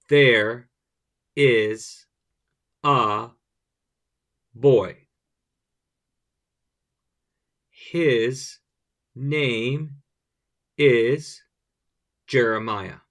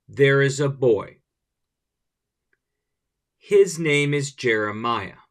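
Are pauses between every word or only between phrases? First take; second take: every word; phrases. First: A pause falls between every single word. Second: Pauses fall only between the phrase chunks. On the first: The speaker calls it wrong. "you don't want to put spaces between each word" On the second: The speaker calls it right. "we're chunking the parts and we're saying them with pause in between"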